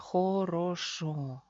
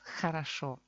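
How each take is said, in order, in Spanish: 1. Cada vocal es una O plena y clara. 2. Las vocales átonas se reducen hacia A. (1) "Oficialmente se lee хорошо" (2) "Ahora tenemos aquí dos A. ... Pronunciamos хорошо"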